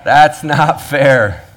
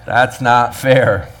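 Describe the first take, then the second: First: Slow, higher, louder "That's not fair."; drawn-out indignant protest; mock complaint. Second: Slow, whiny "That's not fair."; slow petulant protest, louder; mock complaint. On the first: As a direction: whine it out like a cheated worker. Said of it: "to which we all say". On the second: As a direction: drag it out like a sulking worker. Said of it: "to which all of us say".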